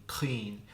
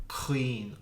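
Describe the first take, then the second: Both takes have the same delivery.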